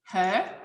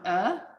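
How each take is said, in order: First: The word is said in full with its h. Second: The word is reduced to a weak vowel. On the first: "they will skip the um" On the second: "it will become a"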